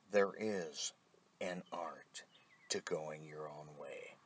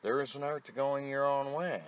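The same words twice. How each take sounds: First: Whispered repeat. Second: Said in the usual way. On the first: Shown as a demonstration. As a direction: repeat the line in a soft whisper. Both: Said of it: "yes, I am repetitive".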